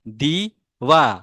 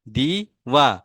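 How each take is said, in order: No difference in how they are said.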